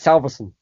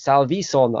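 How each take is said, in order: First: The name is said quickly and casually. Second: The name is said carefully, in Scandinavian style. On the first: "like in this quick way" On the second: "it's Scandinavian and it's Salvison, I think, if you pronounce it properly"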